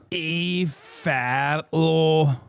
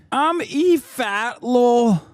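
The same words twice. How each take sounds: First: Very slow, stretched-out repeat of the name; drawn-out name. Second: Mock E Fatlo voice. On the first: Pretend. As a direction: let the name trail out slowly. Streamer repeats name, dragged out. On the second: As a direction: stretch it out big, like a hammed-up announcement. Streamer voicing E Fatlo.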